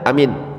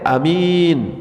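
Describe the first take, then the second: First: Both vowels are short. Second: Only the second vowel is long. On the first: It means safe. "dua-duanya nggak panjang, pendek semuanya" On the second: It means honest. "minnya yang panjang, a-nya pendek"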